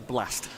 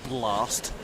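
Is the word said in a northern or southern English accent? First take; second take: northern; southern. First: It is said in a northern English accent. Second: It is said in a southern English accent.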